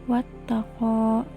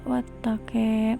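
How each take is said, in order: First: The final vowel sounds like 'a'. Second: The final vowel sounds like 'e'.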